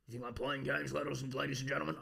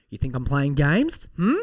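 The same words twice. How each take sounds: First: Quiet menace. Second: Loud, pushy mock threat; loud challenge. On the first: Pretend. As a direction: lean in and threaten softly. Mock threat to listeners, low voice. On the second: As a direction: call them out loudly. Mock threat to listeners, louder.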